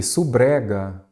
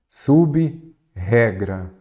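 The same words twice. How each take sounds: First: "Subrega" with b and tapped r blended as su-bre-ga; fuse the prefix, saying "Subrega" as su-BRE-ga; run-together misreading. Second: "Sub-regra" very slow, split after sub, with a strong initial r; separated prefix. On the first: Teacher showing the mistake without a hyphen, "Subrega" blended into su-bre-ga. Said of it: "senão viraria o quê?". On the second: Teacher showing why the hyphen is needed, slowly separating "Sub-regra". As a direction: break "Sub-regra" into sub, pause, regra. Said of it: "eu poderia falar sub-regra". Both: Shown as a demonstration.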